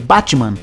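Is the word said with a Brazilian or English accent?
Brazilian. It is said with a Brazilian Portuguese accent. The listener did not understand it. The speaker calls it wrong. "pra gente, em brasileiro, a gente tá acostumado"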